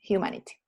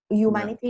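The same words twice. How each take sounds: First: "humanity" with a breathy h before "yu"; corrected "humanity", opening on an audible h; aspirated H. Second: "humanity" without the h, starting "yu"; wrong-example "humanity", opening on a y sound; silent H. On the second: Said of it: "no es humanity". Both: Shown as a demonstration.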